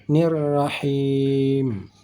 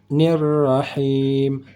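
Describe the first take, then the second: The two takes are said the same way.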